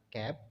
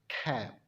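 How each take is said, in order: First: The k has a weak, unexploded release. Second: The k has a strong, exploded release. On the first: The speaker calls it wrong. "orang asing tidak berkata cap" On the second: The speaker calls it right. "tetapi mereka berkata cab"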